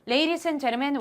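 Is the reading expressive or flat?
flat. It is read flatly, without feeling. The speaker calls it wrong. "이런 감정이면 만점 받기 어려운"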